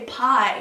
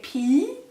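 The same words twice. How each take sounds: First: The vowel sounds like eye. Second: The vowel sounds like ee. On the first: This is the English way of saying it. "they don't say pie in German" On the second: This is the German way of saying it. "it sounds like bodily fluid"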